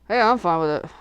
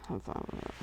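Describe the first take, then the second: First: Said in the usual way. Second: Whispered under her breath. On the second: Real, not acted. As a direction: breathe it almost silently.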